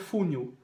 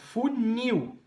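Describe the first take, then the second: First: The stress is on the first syllable. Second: The stress is on the last syllable. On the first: The speaker calls it wrong. "não é fúnil" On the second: The speaker calls it right. "É funil. A última sílaba é a tônica"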